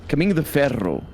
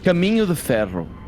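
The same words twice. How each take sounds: First: The R in 'Ferro' is strongly rolled. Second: The R in 'Ferro' is not rolled. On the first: "I didn't roll it like the exaggerated way I did. I do for you" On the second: "so you don't roll your R's"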